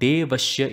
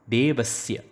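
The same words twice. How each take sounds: First: The middle sibilant is a sh sound. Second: The middle sibilant is an s sound. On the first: The speaker calls it wrong. "Saying Devasya is wrong" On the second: The speaker calls it right. "Make sure that you say Sa"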